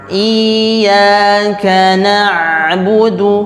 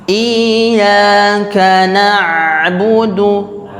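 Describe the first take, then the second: No difference in how they are said.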